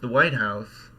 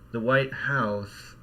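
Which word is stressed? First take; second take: White; House. First: The stress falls on the word White. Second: The stress falls on the word House. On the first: It is the specific building in Washington. "a specific place in Washington"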